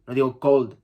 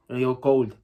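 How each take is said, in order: Both takes have the same delivery.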